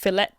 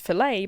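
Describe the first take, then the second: First: The final T is clearly sounded. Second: The final T is silent. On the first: The speaker calls it right. "pronounced fillet hard T" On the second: The speaker calls it wrong. "If you wish to be pretentious"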